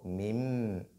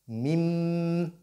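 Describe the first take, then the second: First: The lips close lightly on the m. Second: The lips press together hard on the m. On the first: The speaker calls it right. "pas trop appuyer, plutôt mim" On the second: The speaker calls it wrong. "Il ne faut pas dire mim, mim"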